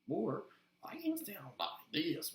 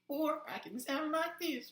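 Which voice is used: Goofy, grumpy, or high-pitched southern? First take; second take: grumpy; high-pitched southern. First: An upset, grumpy old man's voice. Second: A high-pitched voice with a southern accent.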